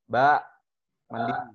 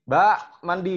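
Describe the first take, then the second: First: It is called out at a raised pitch. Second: It is called out at a higher pitch. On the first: The parent calls the child the first time. "Kita sering kali di oktav lima" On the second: The child did not listen, so the parent calls again. "Nggak dengerin"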